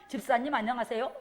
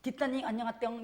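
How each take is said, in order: First: Said in the usual way. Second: "뒷단이 안녕하땡" said with slack lips, consonants smeared; tongue-only speech. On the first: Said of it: "혀하고 내가 입술을 쓰면". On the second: Shown as a demonstration. Preacher mimics speech without lips, babyish mumble. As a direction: talk like a toddler using only the tongue. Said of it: "우리가 혀로만 말을 하잖아요".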